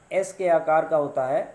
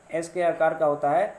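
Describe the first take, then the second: No difference in how they are said.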